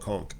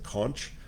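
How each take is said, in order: First: The word ends with a k sound. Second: The word ends with a ch sound. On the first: This is how people in the Bahamas say it. "We call it conch, like conch you in the head" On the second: This is how many people elsewhere say it. "A lot of people pronounce it conch"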